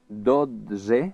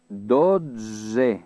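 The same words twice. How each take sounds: First: The word is said at normal speed. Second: The word is slow, middle sounds lengthened.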